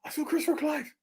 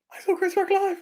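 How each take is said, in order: First: High, hushed squeal of glee; small high-pitched fan squeak; giddy confession. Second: Very high fan squeal; full-voiced squeaky glee; giddy boast. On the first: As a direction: blurt it softly in a high, excited voice. Gleeful announcement after going off topic. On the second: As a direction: repeat it higher, bursting with excitement. Repeats the gleeful announcement, higher. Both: Real, not acted.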